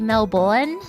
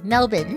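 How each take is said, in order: First: The second syllable is said with an R sound. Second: The second syllable sounds like bin, without R. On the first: The speaker calls it wrong. "a lot of people say Melbourne because that's how it's pro- like that's how it's spelled" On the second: The speaker calls it right. "like B I N. ... There's no R"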